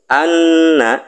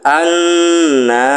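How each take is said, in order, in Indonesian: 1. Vokal akhirnya pendek. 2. Vokal akhirnya dipanjangkan. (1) "naknya seharusnya pendek, tidak dipanjangkan"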